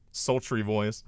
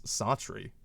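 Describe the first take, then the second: First: Said in the usual way. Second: Soft, breathy sultry word. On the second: Shown as a demonstration. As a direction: purr the word Sultry softly. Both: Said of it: "my sultry voice".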